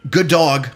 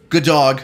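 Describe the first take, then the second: No difference in how they are said.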